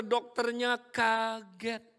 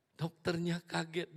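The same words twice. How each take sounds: First: Slow, higher, louder amazed delivery; acted surprise. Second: Said in the usual way. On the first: Preacher telling congregation the doctor was shocked, slow and amazed. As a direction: draw it out like a gasp of amazement.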